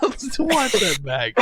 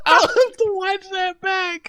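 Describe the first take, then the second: First: Higher voice at ordinary volume, tailing out of a laugh; amused, laughter easing. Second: Very high, slow squeal through laughter; real laughing fit. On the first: Host repeating to co-hosts about his mishap, still amused. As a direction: say it while recovering from laughing. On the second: Host to co-hosts about his own mishap, laughing helplessly. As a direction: wheeze it out high while cracking up. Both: Real, not acted.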